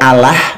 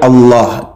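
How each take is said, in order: First: The L is pronounced light and thin. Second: The L is pronounced heavy and thick. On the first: "Kalau dibaca Allah itu beda lagi" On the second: "bacaan yang benarnya Allah, dibaca tafkhim tebal"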